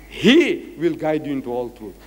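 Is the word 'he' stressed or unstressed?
stressed. The pronoun 'he' is emphasized.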